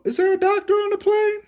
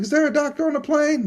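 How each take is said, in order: First: Very high, mock-dramatic movie call; movie announcer call. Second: High, urgent mock call over the cabin; flight attendant call. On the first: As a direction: sing out the line like the old Airplane movie. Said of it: "they go". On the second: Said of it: "somebody was like".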